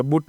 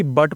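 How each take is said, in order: First: बुट with an "oo" vowel, as in "put"; गलत उच्चारण. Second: बट with a short "a", as in English "but"; सही उच्चारण. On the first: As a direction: misread but as बुट, sounding the u. (बुट में उ की ध्वनि) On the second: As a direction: say बट to rhyme with "cut". (बट में छोटा अ, उ नहीं) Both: Shown as a demonstration. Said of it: "बुट नहीं".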